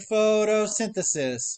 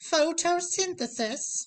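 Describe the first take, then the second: First: It is said in a normal voice. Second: It is said in an old granny voice.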